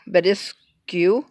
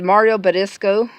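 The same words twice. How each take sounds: First: "Badiscu" drawn out, ending in "-skyoo"; unsure alternative pronunciation. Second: "Badisco" ending in a plain "-sco"; first pronunciation try. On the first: Vlogger unsure of a product name, trying "Badiscu" slowly with "oo". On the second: Vlogger reading out a product name, "Badisco" ending in "oh". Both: Shown as a demonstration. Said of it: "I don't know, but".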